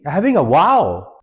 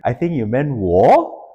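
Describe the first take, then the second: First: The word ends in a 'w' sound. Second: The word ends in an 'r' sound. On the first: The speaker calls it wrong. "What's wow?" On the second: The speaker calls it right.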